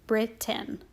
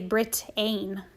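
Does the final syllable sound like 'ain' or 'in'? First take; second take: in; ain. First: The last syllable is said with a short 'i'. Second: The last syllable is said with the written 'ai'. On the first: The speaker calls it right. "That A I worked together to make the I sound" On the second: The speaker calls it wrong. "We don't say Britain"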